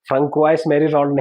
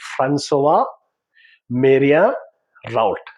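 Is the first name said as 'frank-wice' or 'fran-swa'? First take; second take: frank-wice; fran-swa. First: The first name sounds like 'frank-wice'. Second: The first name sounds like 'fran-swa'. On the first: The speaker calls it wrong. "फ्रंकवाइस मेरी राउंड नहीं" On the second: The speaker calls it right. "इसका actual name है"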